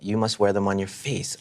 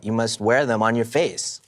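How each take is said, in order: First: The word face gets no special emphasis. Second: The word face gets strong emphasis.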